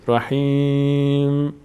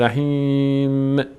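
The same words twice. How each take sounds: First: The word stops cleanly on the final m. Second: A short i vowel follows the final m. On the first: The speaker calls it right. "این حرکت آخر اضافه نکنید" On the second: The speaker calls it wrong. "شما این گونه تلفظ میکنید رحیم. بعد از میم باز یک حرکت کسره میدید به میم"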